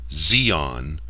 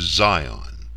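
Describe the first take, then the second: First: The first vowel sounds like 'ee'. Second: The first vowel sounds like 'eye'. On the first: The speaker calls it right. "follow the European continental rules for all vowels" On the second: The speaker calls it wrong. "not the English rules"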